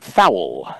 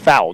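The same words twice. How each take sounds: First: The word is stretched into two syllables. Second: The word is said as one syllable. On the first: The speaker calls it wrong. "It was 2 syllables" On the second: The speaker calls it right. "it's foul"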